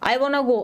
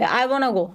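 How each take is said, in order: First: The words are reduced and run together quickly. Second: The same.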